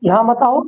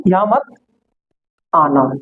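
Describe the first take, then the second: First: Said in the usual way. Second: Pause, then drop the pitch sharply on आना; यहाँ मत, a beat of silence, then आना said low and falling; slow, with a pause before आना. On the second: Shown as a demonstration. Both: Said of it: "इसमें एक word और भी add हो जाता है".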